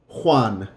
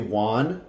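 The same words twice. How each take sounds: First: The name starts with a breathy throat sound. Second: The name starts with a w sound. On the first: The speaker calls it right. "a blowing out in the top of your throat" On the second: The speaker calls it wrong. "it sounds like a W"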